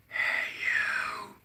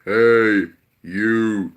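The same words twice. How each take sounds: First: Soft, airy whisper; very light earthly voice. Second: Loud, booming call; God calling out powerfully from heaven; powerful heavenly voice. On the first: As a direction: whisper it lightly, barely there. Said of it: "very light". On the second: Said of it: "so his voice is powerful". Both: Shown as a demonstration.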